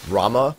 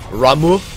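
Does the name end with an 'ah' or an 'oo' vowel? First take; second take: ah; oo. First: The name ends with an 'ah' vowel. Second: The name ends with an 'oo' vowel. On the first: This is how one game's voice actress says it. The speaker calls it wrong. "the way she pronounces Rama" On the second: This is how Final Fantasy XIV says it. The speaker calls it right. "they actually do pronounce it Ramu, like that"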